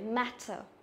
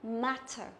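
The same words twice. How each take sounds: Both takes have the same delivery.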